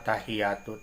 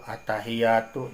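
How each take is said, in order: First: The ya sound is short and single. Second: The ya sound is held and doubled. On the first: The speaker calls it wrong. "berarti yanan teu ditasdidan" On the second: The speaker calls it right. "Tasdid nalapat at-tahiyatu"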